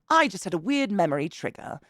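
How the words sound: It is said in a put-on British accent.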